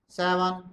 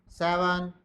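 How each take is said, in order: No difference in how they are said.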